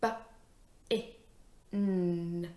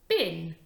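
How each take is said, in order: First: B, I, N as separate sounds, N held; sounded out. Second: BIN blended as one word, louder. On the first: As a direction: sound out "b-, i-, n" with gaps. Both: Shown as a demonstration. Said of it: "My next word is".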